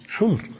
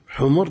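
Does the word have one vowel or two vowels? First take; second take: one; two. First: The word has a single short vowel. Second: The word has two short vowels. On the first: Plural of the word for red. "جمع أحمر" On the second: Plural of the word for donkey. "حمر جمع حمار"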